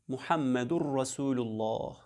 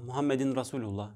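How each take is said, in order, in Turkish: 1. Muhammed'den sonra -ur eki gelir. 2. Muhammed'den sonra -in eki gelir. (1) "lafzı aynen şöyle söylenir" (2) "söylüyorlar. Yanlıştır bu"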